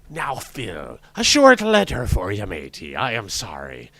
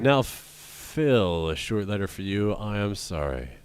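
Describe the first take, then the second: First: It is said in a put-on pirate voice. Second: It is said in his normal voice.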